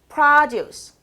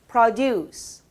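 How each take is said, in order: First: It is stressed the way the noun is. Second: It is stressed the way the verb is. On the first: It names a thing. "명사 produce" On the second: It names an action. "동사 produce"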